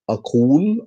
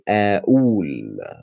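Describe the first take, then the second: First: The middle consonant is a deep back q sound. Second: The middle consonant is a glottal stop catch. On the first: This is the standard form of the word. "it's actually Qaf in standard Arabic" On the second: This is the everyday Egyptian form of the word. "we replace it with uh"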